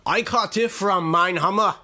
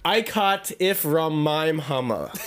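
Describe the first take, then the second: First: It is said in a put-on Australian accent. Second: It is said in the speaker's plain accent.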